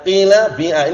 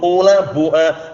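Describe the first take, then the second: First: The first vowel of each word is 'ee'. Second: The first vowel of each word is 'oo'. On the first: This is the most eloquent, preferred form. The speaker calls it right. "kasru fa'il fi'il ... wa ja'lu ainihi ya'an" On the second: This is a weak, irregular dialect form. The speaker calls it wrong. "dhammu fa'il fa'il ... wa ja'lu ainihi wawan sakinatan"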